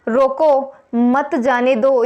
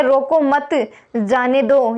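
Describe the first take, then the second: First: "रोको," then a clear pause before "मत जाने दो"; slow "रोको, मत जाने दो" with the pause after रोको. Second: "रोको मत" run together, then a pause before "जाने दो"; very slow "रोको मत, जाने दो" with the break after मत. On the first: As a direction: break right after "रोको" so it means stop him. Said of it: "यानी रोकना है उसे". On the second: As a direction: join "रोको मत" so it means let him go. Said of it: "यानी रोकना नहीं है उसे". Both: Shown as a demonstration.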